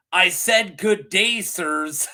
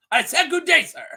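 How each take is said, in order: First: Said in the usual way. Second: High, loud mock outburst; hammed-up, higher and louder send-off; mock indignant dismissal. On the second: Host replays a son firing his mother, mock indignant shout.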